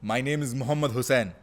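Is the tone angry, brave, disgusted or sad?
brave. It is said in a brave, confident tone.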